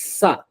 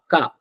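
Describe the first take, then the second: First: The word begins with an s sound. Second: The word begins with a k sound. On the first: The speaker calls it right. "It's Sa" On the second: The speaker calls it wrong. "We don't say it as Ka"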